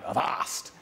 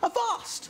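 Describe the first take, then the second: First: It is said in a low, rough voice. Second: It is said in a high, posh voice.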